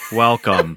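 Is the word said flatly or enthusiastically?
enthusiastically. It is said with more excitement and energy.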